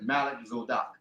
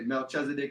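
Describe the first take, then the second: First: The name is said as two words, Malik Zadok. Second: The name is said as one word, Melchizedek. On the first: This form shows the original parts of the name. "but Malik Zadok" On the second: This is the usual English form of the name. "they say Melchizedek would be the English rendition"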